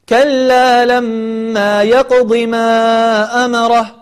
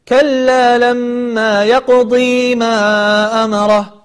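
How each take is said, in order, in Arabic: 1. الحركة بعد الضاد هي i قصيرة. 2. الحركة بعد الضاد هي ee طويلة. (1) "والضاد هذه مكسورة وليست ياء، فأنت حين الوصل تقول" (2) "ولا تقول"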